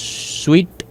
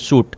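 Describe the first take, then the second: First: The word sounds like 'sweet'. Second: The word sounds like 'suit'. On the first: "स्वीट या फिर सूट जो भी है आपकी प्रोनाउंसिएशन पे बेस करता है" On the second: "स्वीट या फिर सूट जो भी है आपकी प्रोनाउंसिएशन पे बेस करता है"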